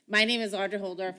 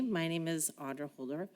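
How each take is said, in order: First: It is said loudly, in a projecting voice. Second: It is said quietly, in a normal voice.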